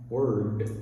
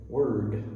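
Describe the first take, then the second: No difference in how they are said.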